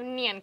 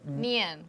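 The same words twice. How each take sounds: First: The word is said quickly. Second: The word is said slowly. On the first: "I thought if I just said it really quickly" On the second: "now slow it down for me"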